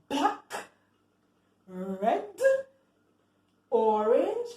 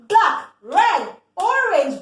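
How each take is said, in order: First: The words are said slowly. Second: The words are said fast.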